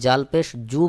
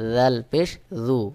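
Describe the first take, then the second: First: The first consonant is pronounced hard. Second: The first consonant is pronounced light. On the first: The speaker calls it wrong. "অনেকে জাল পেশ জু বলে থাকে, অর্থাৎ শক্ত করে" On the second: The speaker calls it right. "সহি উচ্চারণ হলো জাল পেশ জু"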